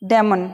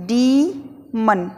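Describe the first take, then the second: First: डेमन said with a short e, as people usually say it; common wrong way. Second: डीमन drawn out very slowly with a long ee; correct English way. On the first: Teacher shows the habitual wrong pronunciation, short e on डेमन. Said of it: "हम इसे डेमन बोलते हैं ना". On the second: Teacher slowly models the correct डीमन, long ee. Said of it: "इसको बोलते हैं डीमन". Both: Shown as a demonstration.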